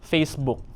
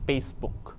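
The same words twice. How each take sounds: First: It begins with an F sound. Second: It begins with a P sound.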